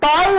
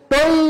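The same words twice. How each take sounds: First: The first vowel is an open 'aw' sound. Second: The first vowel is a closed 'o' sound. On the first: The speaker calls it wrong. "টই বলা যাবে না" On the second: The speaker calls it right. "উচ্চারণটা অ এর মতো না হয়ে হবে ও এর মতো।"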